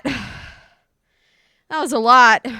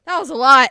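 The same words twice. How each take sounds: First: "That was a lot" stretched very slow and loud; drawn-out sigh. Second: Said in the usual way. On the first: Real, not acted. Streamer exhausted after the cat fight, drawing it out slowly. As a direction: drag out "lot" like you're exhausted.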